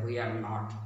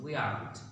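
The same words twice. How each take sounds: First: Marathi-accented we are not. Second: We aren't, contracted the English way; English accent. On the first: Teacher demonstrating the Marathi accent to learners, Marathi-accented. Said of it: "Marathi accent is there". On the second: Teacher correcting learners' accent, English-accented. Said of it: "Use the English accent". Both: Shown as a demonstration.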